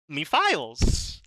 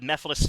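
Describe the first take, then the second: First: The name is said like 'me files'. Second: The name is said the usual way.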